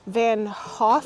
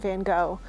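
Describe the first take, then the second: First: The name is said the Dutch way. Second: The name is said the American way. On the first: The speaker calls it right. "the actual pronunciation was like Van Hoff" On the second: The speaker calls it wrong. "that's the American pronunciation"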